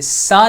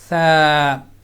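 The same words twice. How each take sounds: First: The consonant is a sharp whistling hiss. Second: The consonant is soft with no whistling hiss. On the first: The speaker calls it wrong. "सा नहीं पढ़ेंगे, अगर इसको सा पढ़ेंगे तो ये सीन बन जाएगा" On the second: The speaker calls it right. "बिल्कुल लाइट सॉफ्ट आवाज़ में"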